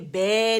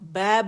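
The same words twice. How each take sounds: First: The vowel leans toward an e sound. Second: The vowel is a full, open, raised a sound. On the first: The speaker calls it wrong. "बै नहीं बोलेंगे" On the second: The speaker calls it right. "तो हम बै बोलेंगे"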